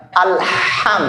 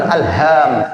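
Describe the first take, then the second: First: Ha in "alham" like panting from chilli; "alham" with raspy ha. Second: Faulty ha in "alham"; wrong "alham". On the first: Teacher shows ha like chilli burn, correct "alham". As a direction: breathe out the ha of "alham", higher. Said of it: "kayak kepedesan". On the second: Teacher shows the mistake, wrong "alham". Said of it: "Bukan alham". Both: Shown as a demonstration.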